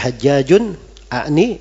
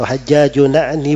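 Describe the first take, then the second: First: A glottal stop separates the two words. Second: The two words link without a glottal stop. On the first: It adds an extra syllable to the line. The speaker calls it wrong. "itu ada tambah kalimat di situ" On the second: It keeps the meter of the line balanced. The speaker calls it right. "hamzahnya itu dirubah menjadi hamzah wasal"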